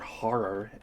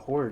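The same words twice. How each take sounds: First: The word is said in an odd, pirate-like way. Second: The word is said in a plain, ordinary way.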